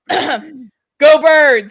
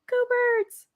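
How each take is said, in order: First: It is said loudly and forcefully with a twang. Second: It is said softly, without force. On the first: The speaker calls it right. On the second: The speaker calls it wrong.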